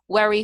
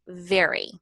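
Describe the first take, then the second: First: The word begins with a W sound. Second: The word begins with a V sound. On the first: The speaker calls it wrong. "they say worry for very" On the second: The speaker calls it right. "the teeth and the lower lip connect"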